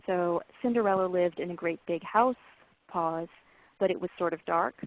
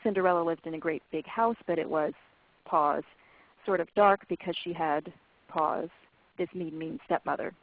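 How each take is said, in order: First: Story read with pauses at clause ends; natural pauses. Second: Pauses dropped mid-phrase, after but it was and because she had; unnatural pauses. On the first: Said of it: "pauses in natural places". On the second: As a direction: break the sentence in the wrong places. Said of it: "pauses in unnatural places". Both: Shown as a demonstration.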